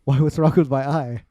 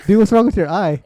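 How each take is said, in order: First: Mildly baffled retold reply; imitating oblivious friend. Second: Loud, high startled question; acted-out alarmed outburst; retold alarm. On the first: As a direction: ask back as if clueless. Friend answers, unaware of his eye. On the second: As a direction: react in shock to a friend's face. Friends react alarmed to his eye.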